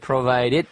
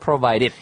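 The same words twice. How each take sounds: First: The middle D is a hard, full D. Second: The middle D is a soft, flapped D. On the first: The speaker calls it wrong. "provided가 아니고요" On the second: The speaker calls it right. "it does have that rolling D sound"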